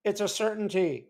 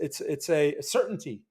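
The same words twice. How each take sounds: First: Small, higher mousy imitation of Saylor; light mousy Saylor impression; little mousy voice. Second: Said in the usual way. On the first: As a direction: squeak it out like a timid little man. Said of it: "as he says it in his little mousy voice". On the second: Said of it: "in his little mousy voice".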